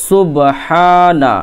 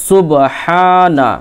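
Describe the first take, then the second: No difference in how they are said.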